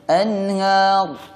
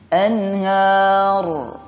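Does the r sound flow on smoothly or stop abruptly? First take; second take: stops; flows. First: The final r sound is cut off abruptly. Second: The final r sound flows briefly without stopping. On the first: The speaker calls it wrong. "Kalau putus seperti ini" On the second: The speaker calls it right. "Suaranya mengalir tapi tidak panjang"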